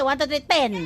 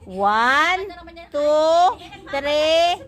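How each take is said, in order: First: The counting is fast and rushed. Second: The counting is slow and unhurried.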